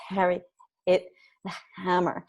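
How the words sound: The voice has breathy breaks in it.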